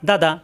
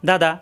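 The two takes are said the same way.

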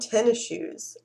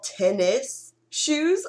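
First: The s at the end of tennis is dropped. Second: The s at the end of tennis is pronounced. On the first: This is how the speaker personally says it. "But I call them tennis shoes. Almost like TENNA shoes" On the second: This is the standard way to say it. "I know it's supposed to be called tennis shoes"

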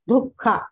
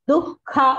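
First: The first consonant has a breathy aspiration. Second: The first consonant has no breathy aspiration. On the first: The speaker calls it wrong. "not dukha" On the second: The speaker calls it right. "there is no mahaprana in dhu"

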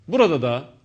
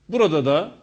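No difference in how they are said.

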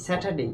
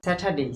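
Both takes have the same delivery.

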